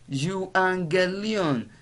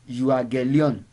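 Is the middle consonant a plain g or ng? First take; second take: ng; plain g. First: The middle consonant is an ng sound. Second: The middle consonant is a plain g sound. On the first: The speaker calls it right. "it is pronounced euangelion" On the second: The speaker calls it wrong. "is not pronounced euagelon"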